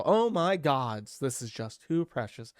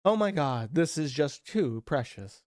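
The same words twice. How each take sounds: First: "gods" said slowly with the final s added; gods with plural s. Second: Said in the usual way. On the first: Shown as a demonstration. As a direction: stretch out "Oh my gods" and land on the s. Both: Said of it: "that G is probably plural".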